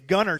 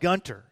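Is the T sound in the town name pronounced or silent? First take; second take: silent; pronounced. First: The T in the middle is silent. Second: The T in the middle is pronounced. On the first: The speaker calls it right. "It's Gunner, Texas, even though it's spelled Gunter" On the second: The speaker calls it wrong. "Don't call it Gunter. They will run you out of town if you pronounce the T"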